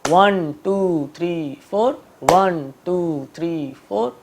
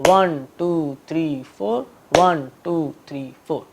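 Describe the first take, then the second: Both takes have the same delivery.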